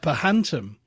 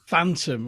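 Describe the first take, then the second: First: The word is said with three syllables. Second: The word is said with two syllables. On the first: It is a misreading of the written word. The speaker calls it wrong. "I thought it was a kind of goes called a Pahantum" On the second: It is the usual way to say the word. The speaker calls it right. "he realised it phantom was the same word"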